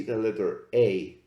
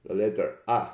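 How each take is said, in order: First: Said in the usual way. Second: "A" said as an open "ah", not "ay"; Latin A. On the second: Shown as a demonstration. Teacher shows students the Latin letter name, open "ah". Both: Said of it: "in Latin".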